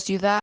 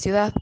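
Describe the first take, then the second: First: The final d sound is dropped. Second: The final d sound is pronounced. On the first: "la pérdida de la letra D y de la letra J al final de las palabras" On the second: "en lugar de"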